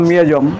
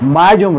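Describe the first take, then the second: First: The first syllable sounds like 'mi'. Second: The first syllable sounds like 'mai'. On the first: "হয়তো সেটি সঠিক উচ্চারণ" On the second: "বর্তমান মায়াজমের উচ্চারণটা"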